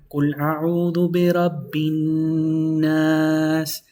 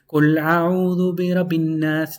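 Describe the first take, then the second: First: The double n sound is held long. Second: The double n sound is rushed and short. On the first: The speaker calls it right. "because you're pronouncing double noon" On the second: The speaker calls it wrong. "It's incorrect to say"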